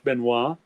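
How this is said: The name is said with a French pronunciation. "French Benoit"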